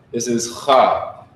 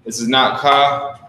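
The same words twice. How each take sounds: First: Cha said slowly with a throaty rasp, ch as in Bach; guttural cha. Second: Ka said with a hard k; hard k sound in ka, the wrong way; not ka. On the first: Teacher showing the students a throaty cha. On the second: Teacher contrasting the hard k in ka. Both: Shown as a demonstration. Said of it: "really gotta put the emphasis on it".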